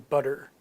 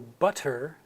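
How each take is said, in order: First: The middle T is voiced, almost a D. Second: The middle T is a clear, voiceless T. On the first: "in American English" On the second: "in British English"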